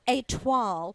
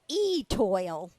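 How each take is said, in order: First: It is said with a French pronunciation. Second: It is said like English 'e-toil', Southern style.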